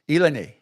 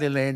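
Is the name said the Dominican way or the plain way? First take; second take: Dominican; plain. First: The name is said as Dominicans pronounce it. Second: The name is said in its usual pronunciation. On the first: This is how people in the Dominican said it. "That's how they pronounce it" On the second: This is how the name is normally said. "not Elaine"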